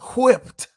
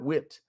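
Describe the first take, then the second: First: The word begins with a drawn-out qw sound. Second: The word begins with a plain w sound. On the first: Beaten very badly. The speaker calls it right. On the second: Beaten in an ordinary way. The speaker calls it wrong. "Not whipped"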